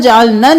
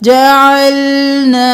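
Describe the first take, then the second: First: The final vowel is cut short. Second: The final vowel is drawn out long. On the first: The speaker calls it wrong. "नहीं करना" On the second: The speaker calls it right. "अलिफ मद्दा है"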